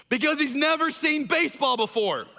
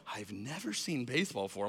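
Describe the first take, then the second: First: Higher, bold proclamation with stress on never; yells out. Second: Much lower and softer disbelieving repeat; stunned quiet. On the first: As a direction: announce it boldly to the crowd. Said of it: "yells out this line". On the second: Embarrassed friend echoing Tim's claim, stunned quiet mutter. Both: Retold or imitated.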